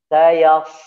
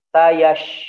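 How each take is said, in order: First: The word ends with a plain s sound. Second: The word ends with an sh sound. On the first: The speaker calls it right. "Sayas gitu ya" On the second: The speaker calls it wrong. "tidak boleh sayash"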